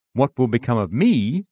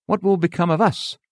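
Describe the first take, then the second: First: Said in the usual way. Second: Us leaned on, the whole question lifted high; stress on us. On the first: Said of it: "if he had said". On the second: Retold or imitated. Hearer asking the preacher, stressing us. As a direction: hit the word us hard, as if asking for everyone. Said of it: "he stressed the word us".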